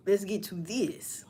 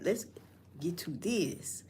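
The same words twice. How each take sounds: First: Said in the usual way. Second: Slow breathy whisper of the catchphrase. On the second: Shown as a demonstration. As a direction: whisper it, drawn out. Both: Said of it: "See, I used to say like that".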